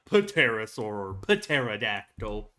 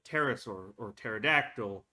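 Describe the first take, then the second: First: The initial P is pronounced. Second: The initial P is silent. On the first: The speaker calls it wrong. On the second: The speaker calls it right. "I don't think the P is pronounced. At the very beginning, it's like"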